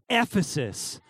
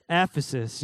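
First: Ephesus punched hard on the first syllable, EF-esus; with emphasis. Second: Said in the usual way. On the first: Shown as a demonstration. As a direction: stress the EF of Ephesus like the word emphasis. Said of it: "we need to say it with eff-, emphasis". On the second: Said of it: "Everyone say Ephesus".

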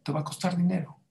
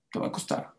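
First: Said in the usual way. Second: The repeat breathed out in a whisper; ominous whispered warning. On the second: Acted. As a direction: drop to a knowing whisper.

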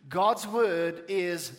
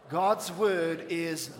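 Both takes have the same delivery.

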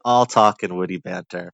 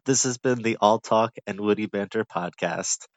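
First: Triumphant. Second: Podcast outro. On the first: Real, not acted. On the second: Acted. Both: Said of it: "Ah, that's it".

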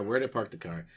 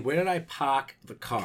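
First: Said in the usual way. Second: "park" said as "pahk", r dropped, with "car" keeping its r; Boston "park". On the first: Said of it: "He's like". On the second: Retold or imitated. Podcaster quoting the film to co-host, "park" as Boston "pahk". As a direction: drop the r in "park" only, keep it in "car". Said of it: "And he's saying".

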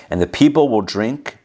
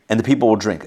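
First: DRINK left rising, as if more follows; run-on reading. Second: DRINK falling to a full stop; period after drink. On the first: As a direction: read on through "drink" without a full stop. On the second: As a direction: close the sentence firmly on "drink". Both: Shown as a demonstration. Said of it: "There should be a period after drink".

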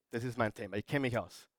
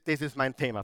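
First: Much softer, lower, leaning in; soft emphatic repeat. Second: Said in the usual way. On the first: Shown as a demonstration. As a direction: say it close and intimate as a confession. (leise und tief, eindringlich)

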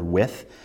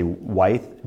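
First: "width" pronounced like "with"; short-i pronunciation. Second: "width" pronounced "wythe", long i; preferred long-i pronunciation. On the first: Teacher names the word to avoid confusing, "width" said like "with". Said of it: "differentiates it from the word width". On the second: Teacher gives the preferred brick term, "width" said as "wythe". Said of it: "I prefer to say width". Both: Shown as a demonstration.

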